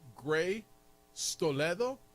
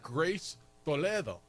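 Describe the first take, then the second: First: The s sound starts the second word. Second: The s sound ends the first word. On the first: Someone misheard the name. The speaker calls it wrong. "Is her name Gray Stoledo" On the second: This is the real name. The speaker calls it right. "No, dude, it's Grace Toledo"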